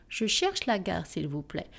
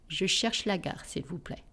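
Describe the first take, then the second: The two takes are said the same way.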